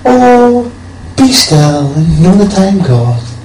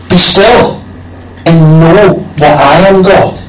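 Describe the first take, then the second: First: It is said in a light, casual tone. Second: It is said in a firm, commanding tone.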